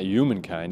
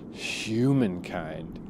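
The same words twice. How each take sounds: First: The word starts without an h sound. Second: The word starts with a clear h sound. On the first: The speaker calls it wrong. "it's not humankind" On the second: The speaker calls it right. "it's humankind"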